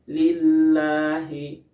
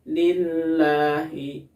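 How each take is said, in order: First: The h sound is faint and unclear. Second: The same.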